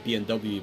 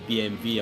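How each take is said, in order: First: The letters are said with English letter names. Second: The letters are said with German letter names. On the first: "English English speaking people always say" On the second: "in Germany they say"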